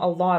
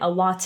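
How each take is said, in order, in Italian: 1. La T è una flap veloce, come la R. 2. La T è una T piena e netta. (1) "Di solito questa T diventa una flap T" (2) "non è a lot of"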